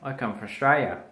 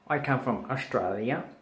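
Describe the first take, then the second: First: The country name is clipped to two syllables. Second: The country name is said with all its syllables. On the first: The speaker calls it right. "We say I come from Australia" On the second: The speaker calls it wrong. "We don't say I come from Australia"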